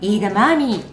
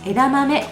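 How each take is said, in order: First: The word is said with drawn-out long vowels. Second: The word is said with short, even vowels. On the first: This is how people in Israel read it. "イーダマーミーと読みます" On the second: This is the Japanese reading. "読み方は枝豆ではなく"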